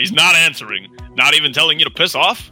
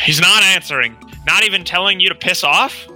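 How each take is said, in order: First: It is said in a deeper voice. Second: It is said in a normal voice.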